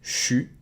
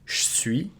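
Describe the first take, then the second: First: It is squeezed into one syllable, 'chu'. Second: The E of 'je' is dropped. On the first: It sounds informal, as in North America. "get rid of the I and it becomes chu" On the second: It sounds less formal. "devocalize the E and make it je suis"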